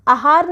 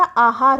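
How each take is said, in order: First: आहार with short first 'a'; wrong short vowel. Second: आहार with long first 'aa'; correct long vowel. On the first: Teacher rejecting a mistake, short 'a' starting आहार. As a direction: say आहार as 'a-haar'. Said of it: "आहार नहीं होता". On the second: Teacher giving correct form, long 'aa' starting आहार. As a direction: stretch the opening of आहार as 'aa-haar'. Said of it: "आहार होता है". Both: Shown as a demonstration.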